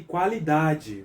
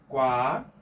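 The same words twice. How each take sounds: First: Said in the usual way. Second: QUA... LI... DA... DE, long pauses between syllables. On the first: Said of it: "Separei qualidade". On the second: Shown as a demonstration. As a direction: split "Qua-li-da-de" into four separate beats. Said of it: "Separei qualidade. Vamos lá?".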